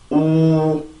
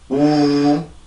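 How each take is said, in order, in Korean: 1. 입술을 둥글게 하고 입안을 비운 채로 내는 소리예요. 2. 입을 편안하고 느슨하게 풀고 내는 소리예요. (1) "다시 입을 만들고" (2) "입을 풀고"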